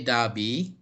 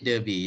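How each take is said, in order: First: Derby said British-style as "DAH-bee"; British pronunciation. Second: Derby said American-style as "DUR-bee"; "ur" vowel in Derby; American pronunciation. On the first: Teacher showing students the British Derby, British pronunciation. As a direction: open "ah" in Derby, no R. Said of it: "the British will say". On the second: Teacher showing the class the American Derby, American pronunciation. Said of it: "The Americans say Derby". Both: Shown as a demonstration.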